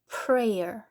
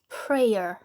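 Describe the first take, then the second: No difference in how they are said.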